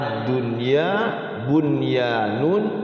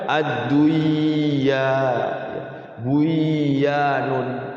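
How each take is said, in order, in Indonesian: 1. Bunyi n sebelum y diucapkan dengan jelas. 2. Bunyi n sebelum y melebur dan hilang. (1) "nun sukunnya ini harus dibaca jelas" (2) "Tidak boleh dibaca"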